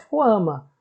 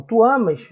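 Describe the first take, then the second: First: "ama" sem S final, fechando na vogal. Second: "amas" com o S final bem audível. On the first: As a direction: diga "ama" cortando o S. ("ama" terminando seco no A) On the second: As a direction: marque o S de "amas" antes de tirá-lo. ("amas" com S final nítido) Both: Shown as a demonstration. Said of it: "eu tiro o S".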